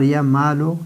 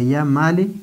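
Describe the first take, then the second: First: The name ends with a short 'u' vowel. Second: The name ends with a short 'i' vowel. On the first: The vocative ending replaces the original vowel. "मबनी बिज़म है" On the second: The original vowel of the dropped letter's neighbour is kept. "यानी काब से पहले जिस हर्फ की जो एराब है वो ज़ेर है"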